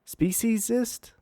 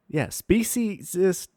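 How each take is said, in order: First: Pitched high and slow, Speciesist? as a stunned question; can't believe the word he just read; incredulous. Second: Slow, speciesist said flatly as a resigned confirmation; yes, that's really the word; deadpan confirm. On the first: Host repeating PETA's word in disbelief. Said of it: "Oh my lord". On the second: Host confirming the absurd PETA term, deadpan. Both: Real, not acted.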